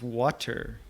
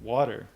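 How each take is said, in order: First: The middle consonant is a clear T sound. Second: The middle consonant is a soft D-like sound. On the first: "There's a T in there" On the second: "water is W A D D E R ... but I always say water"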